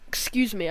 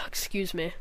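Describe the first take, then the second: First: Said in the usual way. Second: Breathy unvoiced "Excuse me."; whispered excuse me. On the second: Real, not acted. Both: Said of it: "I keep, I keep burping".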